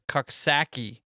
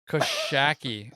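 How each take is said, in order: First: The x is sounded as 'ks' after 'co'. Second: The x is silent and 'sh' follows 'co'. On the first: The speaker calls it wrong. "I'm gonna go with Coxsackie. Did I fuck that up?" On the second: The speaker calls it right. "Where do you get the sh? ... Is it a silent X?"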